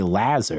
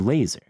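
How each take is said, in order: First: The first vowel sounds like the a in amplification. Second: The first vowel sounds like the a in late. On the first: The speaker calls it wrong. "Because amplification, you don't say laser" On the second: The speaker calls it right. "You say laser"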